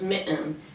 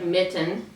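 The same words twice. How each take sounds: First: The t is replaced by a glottal stop. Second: The t is pronounced as a clear t.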